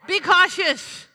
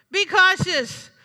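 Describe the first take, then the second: First: "Be" hit hard, then "cautious" falls; firm warning. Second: "Be cautious" said slowly, with "Be" stressed; slow, weighty warning. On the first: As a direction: punch "Be" as a warning. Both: Shown as a demonstration.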